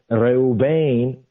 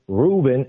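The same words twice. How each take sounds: First: Reuben said as "reh-oo-BAYN"; Hebrew pronunciation. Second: Said in the usual way. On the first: Shown as a demonstration. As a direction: stress the long final BAYN in Reuben. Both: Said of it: "the meaning of the name Reuben".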